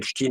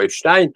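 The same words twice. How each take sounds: First: The last syllable sounds like 'steen'. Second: The last syllable sounds like 'stine'.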